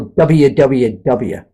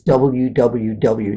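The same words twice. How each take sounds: First: The letters are said in a shortened form. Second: Each letter is said in full. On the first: This is how many other people say it. The speaker calls it wrong. "I don't say, like a lot of people" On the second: This is how it really is. The speaker calls it right. "I say it like it is"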